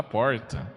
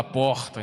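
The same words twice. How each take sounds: First: Porta with the country retroflex r; rural pronunciation. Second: Said in the usual way. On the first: Shown as a demonstration. Priest imitates how people from the interior say porta. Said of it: "No interior a gente ... fala porta". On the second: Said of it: "No interior a gente não fala porta".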